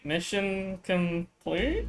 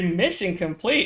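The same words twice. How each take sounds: First: It is said in an unsure tone. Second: It is said in a cheery tone.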